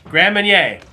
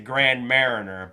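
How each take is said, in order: First: The second word sounds like 'marnier'. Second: The second word sounds like 'mariner'. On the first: The speaker calls it right. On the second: The speaker calls it wrong.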